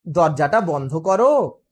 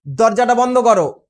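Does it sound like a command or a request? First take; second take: request; command. First: It is said softly as a request. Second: It is said as a firm order.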